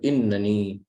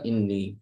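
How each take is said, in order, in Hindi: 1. इस शब्द में तीन अक्षर हैं, एक अतिरिक्त न के साथ। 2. इस शब्द में दो अक्षर हैं, एक न की आवाज़। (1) "एक इजाफी नून भी लाना है" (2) "नून के नीचे ये जेर ले लेगा"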